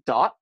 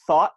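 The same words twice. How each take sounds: First: "dot" for "thought", Bronx-style, with a hard D; Bronx accent. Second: Said in the usual way. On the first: Shown as a demonstration. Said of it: "idiosyncrasy of the Bronx accent". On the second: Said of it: "instead of thought, they say dot".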